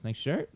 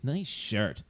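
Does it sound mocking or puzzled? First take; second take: puzzled; mocking. First: It sounds puzzled and questioning, checking the remark. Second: It sounds mocking, putting the shirt down.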